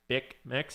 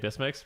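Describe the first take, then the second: First: The name is said with a k sound, 'Bic Mix'. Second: The name is said with an s sound, 'Bismix'. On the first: This is the form others prefer. "I think people prefer saying Bic Mix" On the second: This is the form the speaker habitually uses. "I personally say Bismix because that's just what I'm used to saying"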